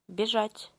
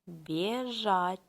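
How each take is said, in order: First: It is said faster. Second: It is said slowly.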